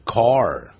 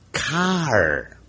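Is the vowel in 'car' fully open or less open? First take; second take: less open; fully open. First: The vowel is said quickly with the mouth less open. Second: The vowel is said with the mouth fully open. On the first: This is how Americans say it in fast speech. "老外啊音念快的时候变成CAR，它变成不是全张" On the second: This is the textbook form of the sound. "按照理论上来讲发这个音的时候念成CAR"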